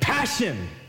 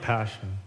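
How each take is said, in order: First: It is said with passion and energy. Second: It is said flatly, without any passion.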